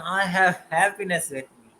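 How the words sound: It is said with strong, warm emotion.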